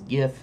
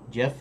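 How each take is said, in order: First: The word begins with a hard G sound. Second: The word begins with a soft J sound. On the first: It is the accepted standard form. "I believe, is the proper way to say G-I-F" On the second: It reflects a personal preference. "if you pronounce G-A-F, Jiff"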